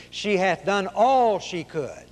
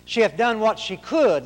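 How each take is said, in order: First: ALL drawn out in a slow, high reading; stress on ALL. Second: Higher reading, COULD leaned on and falling; stress on COULD. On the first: Preacher quoting another translation of the verse, stressing ALL. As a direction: stretch the word "all" slowly. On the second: Preacher quoting the verse on limitation, stressing COULD. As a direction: lift the pitch, then land on "could". Reads first wording of verse. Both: Shown as a demonstration.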